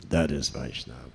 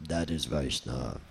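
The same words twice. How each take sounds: First: Much lower, resonant, grave pronouncement; Prabhupada's deep voice. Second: Much lower, grave pronouncement; Prabhupada's deep voice. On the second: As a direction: drop the voice deep and solemn. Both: Retold or imitated. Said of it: "In his deep voice".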